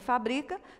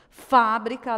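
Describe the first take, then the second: First: The stress is on the second syllable. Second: The stress is on the first syllable. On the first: It is a verb form. "não leva nenhum acento" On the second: It is a noun. "Fábrica leva acento porque é uma palavrinha proparoxítona"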